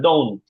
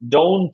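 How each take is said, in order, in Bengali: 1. শেষের t উচ্চারণ প্রায় বাদ দেওয়া হয়। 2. শেষের t উচ্চারণ স্পষ্টভাবে করা হয়। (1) "জাস্ট ডোন্ট" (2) "এরকম না"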